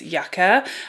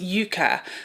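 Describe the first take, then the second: First: The word is said the usual British way. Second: The word is said a different, non-British way. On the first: It names the plant. "in the U K, we would pronounce this yucca" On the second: It names the palette as its maker intends. "Natasha Denona is pronouncing this yucca"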